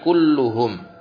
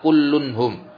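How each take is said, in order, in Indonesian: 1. Tidak ada bunyi n sebelum hum. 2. Bunyi n ditambahkan sebelum hum. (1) "yang betul kulluhum" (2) "bukan kullunhum"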